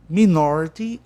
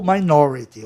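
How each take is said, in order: First: "minority" with short i in the first syllable; "minority" as mih-NOR-ity; first pronunciation. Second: "minority" with long i in the first syllable; "minority" as my-NOR-ity; second pronunciation. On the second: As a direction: say "minority" opening like "my". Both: Shown as a demonstration. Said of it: "Tem duas pronúncias".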